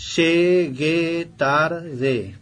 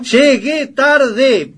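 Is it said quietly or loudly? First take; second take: quietly; loudly. First: It is said quietly, hard to hear. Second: It is said loudly, almost shouted.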